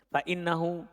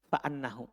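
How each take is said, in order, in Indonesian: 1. Vokal setelah fa adalah bunyi i. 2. Vokal setelah fa adalah bunyi a. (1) "Dengan dibaca kasroh" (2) "kalau antum baca fathah"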